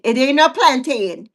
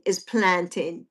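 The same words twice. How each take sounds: First: "plantain" said plan-TAY-in with a long A; wrong pronunciation. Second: "plantain" as plan-tin, soft and slow; plan-tin, no A, said quietly; right pronunciation. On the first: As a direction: stretch the end of "plantain" into TAY-in. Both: Shown as a demonstration. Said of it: "make sure it ain't got no A in it".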